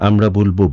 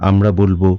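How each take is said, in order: The two takes are said the same way.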